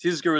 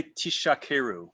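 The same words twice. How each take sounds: First: "Tizkaru" with a voiced z; "Tiz-karu", z rather than sh; correct zayin. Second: "tishakeru" with a sh sound in place of z; mispronounced "tishakeru", sh instead of z; shin for zayin. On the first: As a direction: buzz the z in "Tizkaru". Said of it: "shin instead of a zayin". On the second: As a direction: say "tishakeru" with a hushing sh. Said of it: "with a shin instead of a zayin". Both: Shown as a demonstration.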